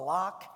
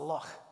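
First: The word ends in a hard k sound. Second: The word ends in a throaty, raspy sound. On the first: The speaker calls it wrong. "is this a lock?" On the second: The speaker calls it right. "No, it's a loch. And they can't do that without spitting"

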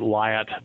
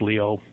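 First: The name is read the English way, as spelled. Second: The name is said the French way, like Leo. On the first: The speaker calls it wrong. "So we'd pronounce it Lyot" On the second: The speaker calls it right. "but it's actually LEO, pronounced LEO"

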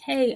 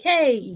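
First: It is said at normal volume. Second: It is said a little louder.

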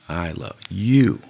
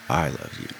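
First: The stress is on "you". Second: The stress is on "I".

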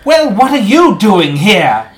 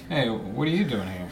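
First: It is said in a grand, theatrical way. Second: It is said in a casual, natural way.

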